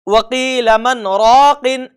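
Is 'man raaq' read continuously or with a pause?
continuous. It runs on without a pause. The speaker calls it wrong. "इस तरह से भी नहीं पढ़ेंगे"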